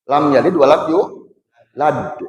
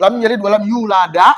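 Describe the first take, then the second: First: The final d ends with a short echoing bounce. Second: The final d is followed by an added vowel. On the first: The speaker calls it right. "Mantulan suara" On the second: The speaker calls it wrong. "itu tawalud. Hukumnya haram bacana"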